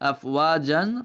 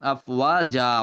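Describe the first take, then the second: First: The word ends with an n sound. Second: The word ends on a vowel without n. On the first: The reader continues without stopping. "ওয়াকফ না করলে জান হইতো" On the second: The reader stops at this word. "ওয়াকফ যখন করবো যা হয়ে যাবে"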